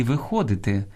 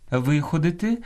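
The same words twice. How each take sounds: First: Виходити stressed on ХО; stress on second syllable. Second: Виходити stressed on ВИ, higher; stress on first syllable. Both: Shown as a demonstration. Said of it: "наголос розрізняє значення слова".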